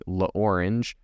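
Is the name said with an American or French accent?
American. The name is said with an American accent.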